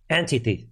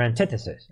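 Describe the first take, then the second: First: Antithesis said as AN-tee-THEE-sis; alternative pronunciation. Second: Antithesis said as an-TITH-uh-sis; alternative pronunciation. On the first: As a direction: say antithesis as "anti" plus "thesis". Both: Shown as a demonstration. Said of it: "as some people say".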